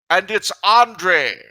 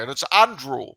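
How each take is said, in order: First: Andre said the French way, ahn-DRAY; French vowels in Andre, stress on the end; the French name Andre; pronounced Andre. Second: Andrew said the English way, AN-droo; English Andrew, stress on the first syllable; the English name Andrew; pronounced Andrew. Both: Acted. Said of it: "uh, sorry, and it's Andrew".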